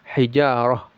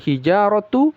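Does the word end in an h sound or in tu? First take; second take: h; tu. First: The word ends in an h sound. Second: The word ends in a tu syllable. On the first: The reciter stops after this word. "Kalau kita berhenti dibaca wal hijarah ya" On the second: The reciter continues without stopping. "kalau kita lanjut menjadi hijaratu"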